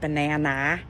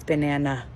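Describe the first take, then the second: First: The last vowel is a full, clear ah. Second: The last vowel is a weak, reduced uh. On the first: The speaker calls it wrong. "Short A says ah, so it's not banana" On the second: The speaker calls it right. "it's banana. And then it just gives up at the end"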